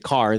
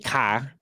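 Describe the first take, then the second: First: It is said with a pronounced California r. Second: It is said in a Boston accent.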